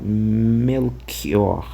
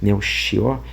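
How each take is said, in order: First: The 'ch' is a hard guttural k sound. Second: The 'ch' is a hissing sh sound. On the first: "ao contrário" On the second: "um som mais chiado, sh"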